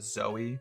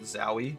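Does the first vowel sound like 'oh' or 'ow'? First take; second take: oh; ow. First: The first vowel sounds like 'oh'. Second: The first vowel sounds like 'ow'. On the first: The speaker calls it right. "pronouncing it Zoe" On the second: The speaker calls it wrong. "other people pronounce it Zowie"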